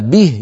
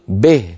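First: The vowel is a pure i sound. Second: The vowel is mixed toward an a sound. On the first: The speaker calls it right. "بدل أن يقول به" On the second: The speaker calls it wrong. "يقول به"

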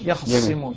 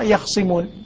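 First: The kha has a full a vowel after it. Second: The kha is vowelless before a single s. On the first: "هذا فتح الخاء" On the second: "حمزة يسكن الخاء ويخفف الصاء"

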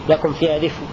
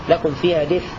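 No difference in how they are said.

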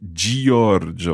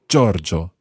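First: The i is sounded as its own syllable. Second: The first sound runs straight into the o. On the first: The speaker calls it wrong. "which is not Giorgio or anything like that" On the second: The speaker calls it right. "It's just straight into Giorgio"

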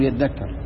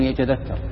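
First: The t merges into a doubled dh sound. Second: The t and dh are pronounced as separate sounds. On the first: This is how the people of Mecca say it. "أهل مكة يقول يتذكر" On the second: This is how the Tamim tribe says it. "فهم يفكون، غالبا يفكون، يقول يتذكر"

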